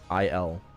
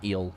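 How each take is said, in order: First: It is said as two parts, eye-el. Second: It is said as one syllable, eel. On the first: The speaker calls it right. "That's how you pronounce it too" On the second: The speaker calls it wrong. "Not eel"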